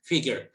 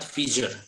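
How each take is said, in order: First: The middle consonant is a hard g sound. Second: The middle consonant is a soft j sound. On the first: The speaker calls it right. "with the Indonesian G" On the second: The speaker calls it wrong. "not figure"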